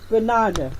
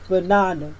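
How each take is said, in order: First: The stress falls on the second syllable. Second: The same.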